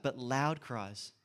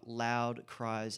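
First: "loud" drawn out slowly for emphasis; stress on "loud". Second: Said in the usual way. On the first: Shown as a demonstration. Preacher underlines the verse for listeners, slow stress on "loud". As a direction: linger on "loud" so it sinks in. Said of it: "Did you hear that?".

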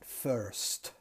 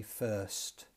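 First: "first" with the R strongly sounded; strong Northern Irish R. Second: Said in the usual way. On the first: Shown as a demonstration. Teacher copies the Northern Irish speaker, "first" with a strong R. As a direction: pronounce the R in "first" as in Northern Ireland. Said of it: "with a strong R". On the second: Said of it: "you would hardly notice the R".

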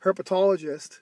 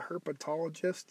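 First: Herpetologist said whole and louder, every syllable clear; clean retry. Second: Herpetologist trailing off quietly, half-swallowed; stumbled word. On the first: Shown as a demonstration. Podcaster correcting his stutter for listeners, clear and louder. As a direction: nail Herpetologist on the second try, louder. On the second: Real, not acted. Podcaster tripping over a long word, fumbling quietly. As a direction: fumble through herpetologist and fade out. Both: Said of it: "I have a stutter, guys".

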